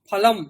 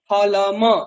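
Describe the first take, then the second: First: The final m is said without a vowel after it. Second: The final m is followed by a short vowel. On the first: "সেই জন্য ময়ের আমরা উচ্চারণটা ফলম করছি" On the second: "যদি ওটা না থাকতো কি হতো?"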